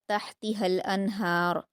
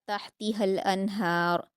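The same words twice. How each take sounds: The two takes are said the same way.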